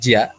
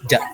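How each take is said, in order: First: It is split into two syllables, ji-a. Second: It is said as a single syllable, ja. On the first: The speaker calls it wrong. "bukan jia" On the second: The speaker calls it right. "tapi ja"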